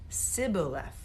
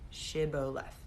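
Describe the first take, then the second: First: The word begins with a plain 's' sound. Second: The word begins with an 'sh' sound. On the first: The speaker is from Ephraim. The speaker calls it wrong. "There's no H in that one" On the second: The speaker is not from Ephraim. The speaker calls it right. "S H I B B O L E T H"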